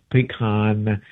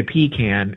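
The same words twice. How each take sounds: First: "pecan" said slowly as pih-KAHN; preferred pronunciation. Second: "pecan" said as PEE-can; rejected pronunciation. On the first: Correcting some people's version, "pecan" slowly as pih-KAHN. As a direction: say "pecan" ending in an open "kahn". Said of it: "It's pecan". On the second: Quoting how some people say it, "pecan" as PEE-can. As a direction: say "pecan" with a long ee, then "can" as in tin can. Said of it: "some people say pecan". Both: Shown as a demonstration.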